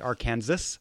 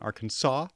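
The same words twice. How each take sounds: First: The final s is sounded, like Kansas. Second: The final s is silent, ending in -saw. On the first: The speaker calls it wrong. "nicht Arkansas" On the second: The speaker calls it right. "The final S is silent"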